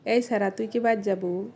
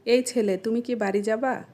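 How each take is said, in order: First: Regional Sirajganj Bengali accent; Sirajganj dialect. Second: Standard Bengali pronunciation. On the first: Asking a boy if he's going home, Sirajganj dialect. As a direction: ask it like a Sirajganj local. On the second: Asking a boy if he's going home, standard Bengali. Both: Shown as a demonstration. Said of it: "এটাকে আমরা আঞ্চলিক ভাষায় কিভাবে বলবো".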